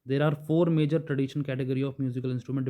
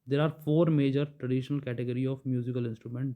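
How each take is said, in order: First: It is read at a normal pace. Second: It is read slowly and deliberately.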